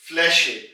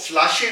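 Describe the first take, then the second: First: The vowel is an umlauted 'ä' sound. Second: The vowel is a plain 'a' sound. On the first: The speaker calls it right. "बल्कि फ्लैशे" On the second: The speaker calls it wrong. "फ्लैशे नहीं हमने कहा"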